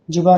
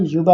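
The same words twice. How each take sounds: First: युवा mispronounced as "juba"; initial j sound. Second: युवा said "yuba", starting with y; initial y sound. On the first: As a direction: start युवा with a hard j, "juba". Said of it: "युवा नहीं". (युवा को गलत ढंग से "जुबा" बोलें) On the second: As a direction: open युवा on a y glide, "yuba". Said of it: "युवा आपका राइट होता है". (युवा को "य" से, "युबा" बोलें) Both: Shown as a demonstration.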